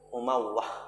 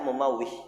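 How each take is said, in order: First: The last syllable has an 'ah' vowel. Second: The last syllable has an 'ih' vowel. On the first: The speaker calls it right. "Lihat mumawwah ya" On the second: The speaker calls it wrong. "Kemarin dibaca mumawwih"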